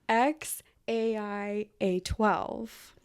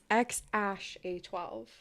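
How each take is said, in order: First: The Æ is read out as separate letter names. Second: The Æ is read as the single word ash. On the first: This is the mother's way of saying the name. "in [name]' pronunciation" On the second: This is the father's way of saying the name. "in [name]'s pronunciation"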